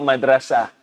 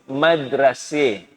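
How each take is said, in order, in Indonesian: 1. Vokal akhirnya adalah 'a' terbuka biasa. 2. Vokal akhirnya condong ke bunyi 'i'. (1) "Macam kita sebut madrasah" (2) "Mereka sebut madrasih"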